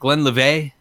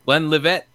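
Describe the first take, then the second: First: It is said French-style, with a soft ending. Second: It ends with a hard, strong t sound. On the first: "I want to be French and fancy" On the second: "Put that T in there real hard"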